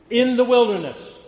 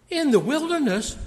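First: In the wilderness said high and loud; stressed phrase. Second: In the wilderness? pitched high in disbelief; incredulous question. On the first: Acted. Preacher quoting Jesus, stressing in the wilderness. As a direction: lift and punch in the wilderness. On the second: Retold or imitated. Preacher voicing his own surprise at the text, rising incredulous. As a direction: ask In the wilderness? as if shocked. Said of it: "And I thought to myself".

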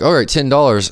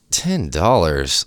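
First: Higher-pitched, brisk retold clerk; offhand, higher-voiced quote of an offer; casual clerk offer. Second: Slow, drawn-out disbelief; stretched-out, retold incredulity; incredulous. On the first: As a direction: toss out the price like a clerk. Retells the store clerk's offer. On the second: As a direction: repeat the price as if you can't believe it. Retells disbelief at the low offer.

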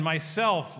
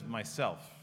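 First: Loud, firm declaration as Aslan; loud and clear. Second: Low, hushed answer as Aslan; soft mock whisper. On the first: Retold or imitated. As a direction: state it strong and clear. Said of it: "loud and clear". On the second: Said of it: "He whispers, so soft you could hardly hear".

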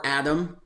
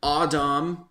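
First: Said in the usual way. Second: Adam said the Hebrew way, "ah-DAHM"; Hebrew pronunciation. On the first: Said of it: "we use both interchangeably". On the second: Shown as a demonstration. Host showing listeners both names, Hebrew "ah-DAHM" for Adam. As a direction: say Adam as "ah-DAHM", long open vowels. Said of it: "Hebrew pronunciations and meanings".

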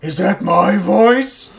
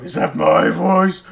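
First: Slow, loud, high cartoon villainess with a laugh; Yzma. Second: Yzma. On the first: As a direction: drag it out like a vain cartoon villainess. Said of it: "Full on Emperor's New Groove, Yzma". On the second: Retold or imitated. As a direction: stretch it out like a vain cartoon villainess. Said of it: "go around going".

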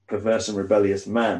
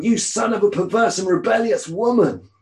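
First: Said in the usual way. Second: Higher, louder, spitting out the insult; furious outburst. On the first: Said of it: "yeah, I don't know about the woman". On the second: Acted. Saul raging at his son Jonathan, furious higher shout. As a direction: roar it like a king exploding with rage. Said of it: "Saul's anger flared up at Jonathan".

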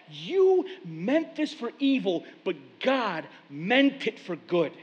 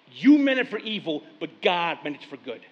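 First: Slow and weighty, dwelling on "meant"; slow savoring quote. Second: Said in the usual way. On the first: Shown as a demonstration. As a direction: pastor savoring the line he loves, slow and weighty. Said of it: "I love that". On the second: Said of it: "I always love that one line".

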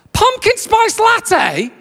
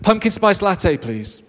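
First: Very high, slow, drawn-out disbelief; incredulous drive-through voice. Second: Said in the usual way. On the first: Retold or imitated. Starbucks worker querying the order over the speaker, incredulous. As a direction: screech the order back as a hammed-up question. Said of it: "comes back at me". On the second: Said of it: "So I say to the metallic voice".

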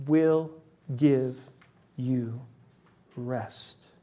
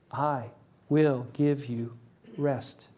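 First: Each word set apart, slow and falling; slow, separated words, emphatic; emphatic promise. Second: Slow, soft; quiet, slow, tender quote; tender promise. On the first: Shown as a demonstration. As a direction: lay every word down with weight. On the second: Acted. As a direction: offer rest gently.

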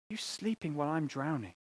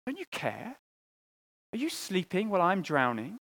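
First: Quiet despair. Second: Pleading. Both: Retold or imitated. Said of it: "you cry out to God".

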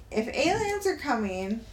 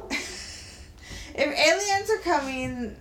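First: Said in the usual way. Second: Slow, laughing through the words. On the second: Real, not acted. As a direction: laugh while repeating it slowly.

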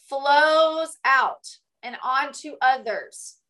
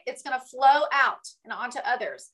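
First: Very slow, drawn-out delivery; slow emphasis. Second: Said in the usual way. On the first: Shown as a demonstration. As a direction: stretch each word out to let it sink in.

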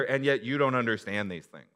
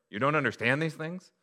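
First: "you don't understand these things" as a firm, loud statement falling at the end. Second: "you don't understand these things" as a loud, high question. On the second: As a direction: lift "these things" into a rising, incredulous question. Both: Shown as a demonstration. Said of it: "Or there's a question mark".

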